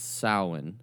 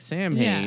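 First: It is said without an h, like sow-in. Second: It is said with an h, like sam-hane. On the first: The speaker calls it right. "But it's Samhain" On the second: The speaker calls it wrong. "so it looks like Samhain"

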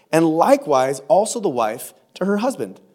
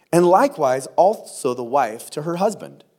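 No difference in how they are said.

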